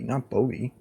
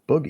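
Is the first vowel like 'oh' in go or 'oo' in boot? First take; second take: oh; oo. First: The first vowel sounds like 'oh' in go. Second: The first vowel sounds like 'oo' in boot. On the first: The speaker calls it wrong. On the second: The speaker calls it right. "boogie, not bogey"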